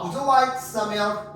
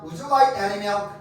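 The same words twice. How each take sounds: First: Very slow, word by word, Would you like some milk?; careful demo of the some version; slow model with some. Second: Very slow, word by word, Would you like any milk?; careful demo of the any version; slow model with any. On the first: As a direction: lay out each word slowly. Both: Shown as a demonstration. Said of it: "이렇게 물어본단 말이야".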